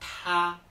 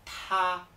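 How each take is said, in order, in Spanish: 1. La t se dice con un soplo fuerte de aire. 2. La t se dice con un soplo fuerte de aire.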